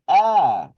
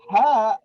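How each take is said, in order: First: It starts with a plain vowel, no h. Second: It starts with a breathy h sound. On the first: The speaker calls it wrong. "I hear you say ah, as if it's an alif" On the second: The speaker calls it right. "instead of saying ha"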